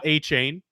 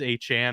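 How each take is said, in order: First: The second syllable sounds like 'chain'. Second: The second syllable sounds like 'chan'. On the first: The speaker calls it wrong. "He is not A. Chain" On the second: The speaker calls it right. "It is A. Chan, apparently"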